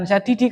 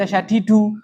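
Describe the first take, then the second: First: The word ends in the vowel i. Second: The word ends in the vowel u. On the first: The speaker calls it wrong. "bukan syadidi" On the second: The speaker calls it right. "karena itu dibaca syadidu"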